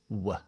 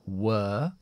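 First: The vowel is a short weak schwa. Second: The vowel is a long schwa. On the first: "se debilita de schwa larga a schwa corta" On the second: "en lugar de were"

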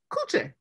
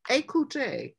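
First: The word's first syllable is left off. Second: The word begins with its full first syllable.

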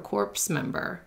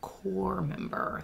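First: The P and S sounds are pronounced. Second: The P and S sounds are silent. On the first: The speaker calls it wrong. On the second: The speaker calls it right.

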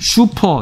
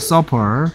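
First: The first vowel sounds like 'soo'. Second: The first vowel sounds like 'suh'. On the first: The speaker calls it wrong. "슈퍼 이러지 마세요. 이거 아니야" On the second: The speaker calls it right. "서퍼야, 서퍼"

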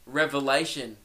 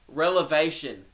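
First: The word begins with a rev sound. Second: The word begins with a rel sound. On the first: The speaker calls it right. "do you mean revelation?" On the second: The speaker calls it wrong. "I just stood my ground"

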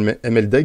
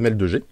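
First: The middle of the name sounds like 'deg'. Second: The middle of the name sounds like 'deux'. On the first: The speaker calls it wrong. "je disais souvent MLDEG, mais on dit que c'est pas comme ça que ça se dit" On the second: The speaker calls it right. "on va dire ML2G"

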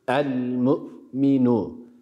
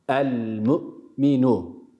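The two takes are said the same way.

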